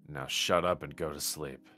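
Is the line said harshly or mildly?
mildly. The line is said mildly, without much edge. The speaker calls it wrong. "You can do it with more bite than that"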